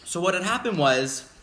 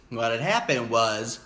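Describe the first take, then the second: First: Said in the usual way. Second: Slow, lower, drawn-out storyteller build-up; slow dramatic repeat. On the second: Shown as a demonstration. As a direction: stretch it out for suspense.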